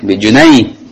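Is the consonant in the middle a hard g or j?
j. The middle consonant is a soft j sound. This is the standard formal form. "Yang fushanya bijunai"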